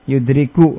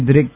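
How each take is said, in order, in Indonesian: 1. Kata ini berakhir dengan vokal u pendek. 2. Kata ini berakhir pada konsonan k mati. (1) "dengan merafa'kan kafnya"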